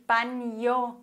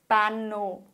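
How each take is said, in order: First: Baño with the n said as n-j, like banyo. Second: Bano with a simple n, no y glide; plain n. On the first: Spanish teacher shows learners the n-j sound in baño. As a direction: say baño with a palatal ny in the middle. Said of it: "dass man wirklich baño sagt". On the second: Spanish teacher shows the mistaken bano, plain n without the glide. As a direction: say bano with an ordinary n straight into the o. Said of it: "und nicht". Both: Shown as a demonstration.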